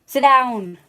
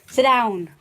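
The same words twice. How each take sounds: First: Louder, firmer repeat of the command; real loud repeated order; yelling at the dog. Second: Loud firm command; real loud order to the dog; yelling at the dog. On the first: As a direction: make the dog obey now. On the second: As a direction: bark the order to sit. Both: Real, not acted. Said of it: "I'm yelling at the dog".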